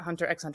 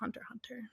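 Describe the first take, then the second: First: The X is spoken aloud between both words. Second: The X is silent between both words. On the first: The speaker calls it wrong. "It's not Hunter x Hunter" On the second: The speaker calls it right. "It's just Hunter x Hunter"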